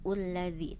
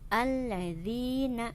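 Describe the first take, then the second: First: The word begins with a u vowel. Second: The word begins with an a vowel. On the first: The speaker calls it wrong. "bukan ulladzi" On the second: The speaker calls it right. "Dibaca harokatnya fathah"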